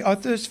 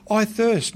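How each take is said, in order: First: "I" lifted and leaned on, "thirst" let go; "I thirst" with the weight on "I"; stress on I. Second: "thirst" leaned on, falling at the end; "I thirst" with the weight on "thirst"; stress on thirst. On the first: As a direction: point the word "I" in the question. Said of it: "And what did he have to say". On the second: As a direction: land on "thirst" as you quote Jesus. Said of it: "what did he have to say, "I thirst," for". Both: Shown as a demonstration.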